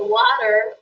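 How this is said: It is said in an American accent.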